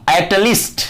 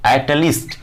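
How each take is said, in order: First: At least with LEAST rising high; stressed at least. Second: Said in the usual way. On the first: Shown as a demonstration. Teacher stressing the English word at least for pupils. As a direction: lift the word least up sharply. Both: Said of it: "कम से कम".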